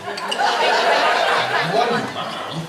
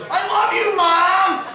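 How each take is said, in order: First: Slow, drawn-out mimicry of his son; slow jealous-dad parody; mocking imitation. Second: Put-on high-pitched, jubilant child voice; gleeful yell to the camera; excited kid's shout. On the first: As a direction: draw it out, sulking in mock hurt. Bitter dad repeats son's words. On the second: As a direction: shout it high like a thrilled boy.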